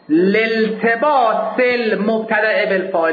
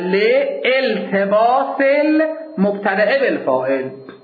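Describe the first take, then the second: First: The article's initial vowel is dropped and linked. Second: The article's initial vowel is pronounced separately. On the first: "اینجوری درسته" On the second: "بدون اینکه همزه وصل رو بندازم بخونم"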